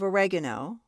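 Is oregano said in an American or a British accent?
American. It is said in an American accent.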